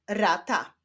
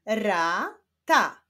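First: Said in the usual way. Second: "Rata" slowly split into ra, ta; syllable by syllable. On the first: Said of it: "i łączenia ich w wyrazy". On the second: Shown as a demonstration. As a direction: sound out "Rata" with a break between syllables. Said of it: "zapraszam Was do odczytywania sylab". ("Rata" powoli, z podziałem na ra, ta)

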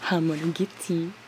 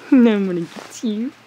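First: Hushed teasing. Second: Laughing tease. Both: Real, not acted. Playing with baby animal.

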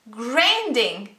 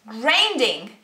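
No difference in how they are said.

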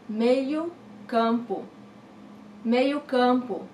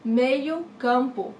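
First: "meio campo" said slowly, each syllable clear; slow teacher model; slow, careful pronunciation. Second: Said in the usual way. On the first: Shown as a demonstration. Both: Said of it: "Midfielder, meio campo".

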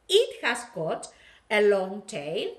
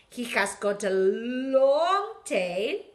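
First: It has got a long tail with a firm It; stress on It. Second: Said in the usual way. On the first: Shown as a demonstration. Teacher correcting he to It for the toy monster, stressing It. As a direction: lean on It at the start. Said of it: "vamos a decir it porque es una cosa". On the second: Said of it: "Podemos decir he".

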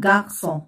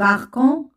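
First: "غارسون" as French "gar-son", with S; correct soft C. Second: "غاركون" as "gar-kon", with a K; wrong hard C. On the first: Teacher offering students the cedilla version, soft S. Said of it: "لكي تصبح غارسون". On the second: Teacher asking students which is right, hard K version. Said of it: "سنقول غاركون أم غارسون". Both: Shown as a demonstration.

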